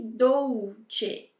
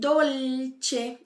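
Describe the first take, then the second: First: The L sounds like a U vowel. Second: The L is clear, tongue tip touching palate. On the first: The speaker calls it wrong. "Viu que eu não falei dolce?" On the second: The speaker calls it right. "Eu disse dolce"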